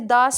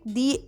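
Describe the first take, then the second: First: The word has a short 'uh' vowel. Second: The word has a long 'ee' vowel. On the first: "consonant हो तो हम उसको दा pronounce करते हैं" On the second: "अगर वो वाउल हो तो हम उसको दी प्रोनाउंस करते हैं"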